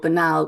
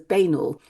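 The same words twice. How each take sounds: First: The word is said the usual, accepted way. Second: The word is said as it is spelled. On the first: The speaker calls it right. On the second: The speaker calls it wrong.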